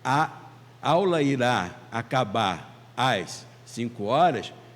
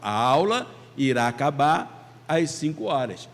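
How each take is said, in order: First: The words are split apart by pauses. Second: The words run together without pauses. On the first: The speaker calls it wrong. "fica difícil da gente entender aquilo que está sendo dito" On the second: The speaker calls it right. "a gente fala junto"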